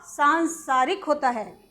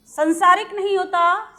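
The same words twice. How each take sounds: First: सांसारिक with a long सां, a bit slow; correct form shown. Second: संसारिक with a short सं; wrong form shown. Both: Shown as a demonstration.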